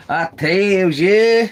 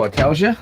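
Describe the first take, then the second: First: Slow, stretched "I tells ya" with "ya" held long; drawn-out folksy repeat. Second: Said in the usual way. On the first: Pretend. Repeating the catchphrase to viewers, slow and stretched. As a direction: savour it like an old-timer's catchphrase.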